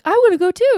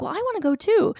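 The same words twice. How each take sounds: First: Put-on higher, louder eager kid voice; younger kid chiming in. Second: Lightly voiced son, a little higher; casual tag-along request; teen son chiming in. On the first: Mother quoting her younger child eager to come, higher and louder. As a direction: beg to tag along. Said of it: "And Audie's like". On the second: Mother quoting her teenage son asking to come, lightly voiced. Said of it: "is like".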